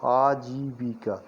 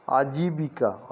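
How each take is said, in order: First: "आजीविका" slowly drawn out as "aa-jii-bii-kaa"; syllable by syllable. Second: Said in the usual way. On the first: Shown as a demonstration. Teacher sounds out आजीविका for learners, slow and syllabled. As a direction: lengthen every syllable of "आजीविका".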